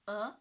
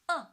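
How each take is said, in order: First: The pitch rises from mid to high. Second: The pitch falls sharply from high to low. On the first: "The second tone. Yes. From three to five" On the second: "From five to one"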